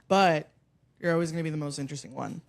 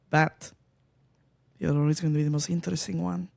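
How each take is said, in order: First: It is said in the speaker's ordinary accent. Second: It is said in a put-on Russian accent.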